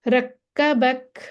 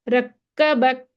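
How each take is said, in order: The two takes are said the same way.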